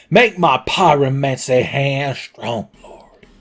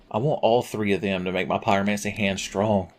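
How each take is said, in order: First: Slow, pleading mock prayer; a hammed-up plea to the heavens. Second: Said in the usual way. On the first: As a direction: beg the Lord for it, slowly.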